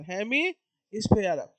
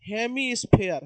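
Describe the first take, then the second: First: hemisphere stretched very slowly, syllable by syllable; drawn-out term. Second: Said in the usual way. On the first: Shown as a demonstration. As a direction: draw out hemisphere so the class can copy it.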